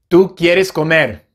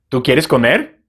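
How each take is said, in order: First: It is said with statement intonation. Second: It is said with question intonation. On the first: It states a fact. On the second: It asks a question.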